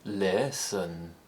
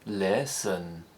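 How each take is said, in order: First: The pitch rises and then falls, stretched out. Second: The pitch rises and then falls, stretched out.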